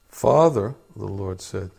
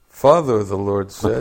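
First: It is read at a quiet volume. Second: It is read at a louder volume.

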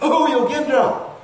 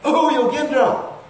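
First: It is said in a very high voice. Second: The same.

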